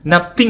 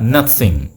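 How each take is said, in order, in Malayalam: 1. 'th' പറയുന്നത് സാധാരണ 't' പോലെയാണ്. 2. 'th'-ന് മൃദുവായ ഹിസ്സിംഗ് ശബ്ദമുണ്ട്. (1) "നത്തിങ് അല്ല" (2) "താ കഴിഞ്ഞിട്ടൊരു സാ പറഞ്ഞു വയ്ക്കേ"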